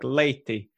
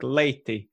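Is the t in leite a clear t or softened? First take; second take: clear t; clear t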